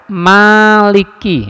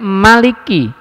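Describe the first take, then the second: First: The first vowel is drawn out long. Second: The first vowel is kept short. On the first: It means owner. "Malik bacaan panjang" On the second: It means king. "ada bacaan pendek"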